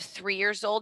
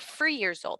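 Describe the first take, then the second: First: Three begins with a TH sound. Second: Three begins with an F sound. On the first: The speaker calls it right. "instead of three years old" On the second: The speaker calls it wrong. "They substitute the th for the f sound"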